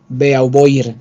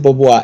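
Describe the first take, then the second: First: The name is read letter by letter as spelled. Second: The name is said with French pronunciation. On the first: This is how the name is written. "le dice Bea, Beauvoir" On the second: This is how the name is actually said. "se pronuncia Beauvoir"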